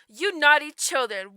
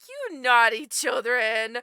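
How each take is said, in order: First: It is said in a harsh, nasty tone. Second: It is said in a nice, gentle tone.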